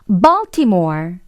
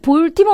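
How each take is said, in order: First: It is said in English with an open jaw. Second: It is said with Korean loanword sounds. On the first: The speaker calls it right. "역시나 턱을 벌리면서 Baltimore" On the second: The speaker calls it wrong. "볼티모어 아니고"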